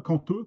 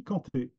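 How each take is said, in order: First: CANTEUX ending in a rounded eu; neighbouring village pronunciation. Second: CANTÉ ending in an open é; Wagnaru pronunciation. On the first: Lecturer cites the form not used in Wagnaru, neighbouring pronunciation. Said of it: "il n'y a pas les mêmes prononciations". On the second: Lecturer shows how Wagnaru says it, local pronunciation. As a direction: say Canté with é, not eu. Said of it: "on dit Canté à, à Wagnari". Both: Shown as a demonstration.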